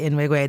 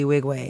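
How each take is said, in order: First: The name begins with an N sound. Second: The name begins with a W sound. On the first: This is how the speaker used to say it. "I would say [name]" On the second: This is how the artist says it himself. "then I would hear him say [name], [name]"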